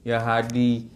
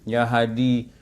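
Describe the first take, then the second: No difference in how they are said.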